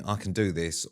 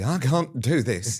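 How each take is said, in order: First: Said in the usual way. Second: Higher, slow, drawn-out defeat; hammed-up wail of defeat; mock despair. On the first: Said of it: "you were either gonna be". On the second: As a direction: imitate someone giving up, stretching the words. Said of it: "or you were gonna be".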